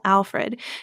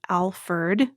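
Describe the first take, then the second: First: The name ends with the sound fred. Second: The name ends with the sound ferd. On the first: This is the form in official documents. "the more traditional Alfred" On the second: This is the form he is generally known by. "like with the E R D"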